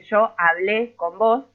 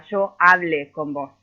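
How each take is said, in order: First: "hablé" as a-BLÉ, stressed on the last syllable; slow demo, leaning on the end of "hablé"; stress on final é. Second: "hablé" said as HA-ble, stressed on the first syllable; slow demo, punching the "ha" of "hablé". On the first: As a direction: spell out the past tense "hablé" by stressing its é. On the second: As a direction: move the accent to the start of "hablé". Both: Shown as a demonstration. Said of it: "no es lo mismo decir".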